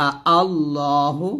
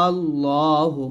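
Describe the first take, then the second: First: Slow আ আল্লাহু with two hamzas; tashil recitation. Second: Long আ running into আল্লাহু; stretched ibdal. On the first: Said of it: "তাসহিলে দুটি Hamza". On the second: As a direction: stretch the alif, then hold the lam. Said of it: "চালিপ টান দিয়ে লামকে ধরতে হবে". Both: Shown as a demonstration.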